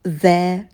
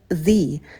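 First: The vowel in the article is a short 'uh'. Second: The vowel in the article is an 'ee'. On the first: The next word starts with a consonant. "артикль читается через «э»" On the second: The next word starts with a vowel. "артикль будет читаться «the»"

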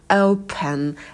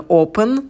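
First: The first vowel is a clear gliding diphthong. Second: The first vowel is a plain single O. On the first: The speaker calls it right. "дифтонг ... его произносите почетче" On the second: The speaker calls it wrong. "это не open, да, просто O"

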